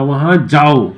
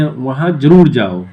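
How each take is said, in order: First: Said in the usual way. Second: "ज़रूर" slow and firm, falling at the end; stress on ज़रूर. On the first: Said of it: "या". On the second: Shown as a demonstration. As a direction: drive home "ज़रूर" as an order. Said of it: "जोर दे के बोलें". ("ज़रूर" पर धीमा, ज़ोरदार बल)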